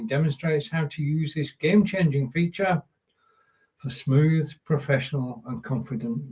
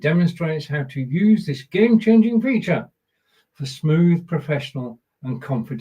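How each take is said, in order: First: It is read plainly, with little feeling. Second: It is read with more feeling and expression.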